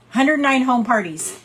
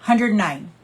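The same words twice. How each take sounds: First: Hundred nine punched louder and higher; stressed Hundred nine home parties; emphatic repeat. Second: Said in the usual way. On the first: Real, not acted.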